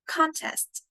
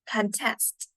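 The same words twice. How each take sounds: First: The stress is on the first syllable. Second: The stress is on the second syllable. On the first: It is a noun. "in the first sentence, contest is your noun" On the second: It is a verb. "in the second one, contest is a verb"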